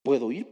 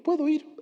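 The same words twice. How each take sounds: First: "¿Puedo ir?" asked with a rise at the end; rising question. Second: "Puedo ir" jumps much higher on "Puedo", then falls; confident answer. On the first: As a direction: ask it, lifting "ir". (pregunta: "¿Puedo ir?" subiendo al final) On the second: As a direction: answer your own question brightly and firmly. (respuesta segura: "Puedo ir" con "Puedo" mucho más agudo y luego bajando) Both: Shown as a demonstration.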